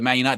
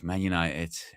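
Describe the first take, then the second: First: It is said proudly and with confidence. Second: It is said reluctantly, with a sigh.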